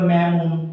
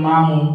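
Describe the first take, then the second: First: The first vowel sounds like the one in cat. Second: The first vowel sounds like the one in father. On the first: "এখন তুমি যদি বলো ম্যামুন" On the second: "অবশ্যই মামুন শব্দটি acceptable"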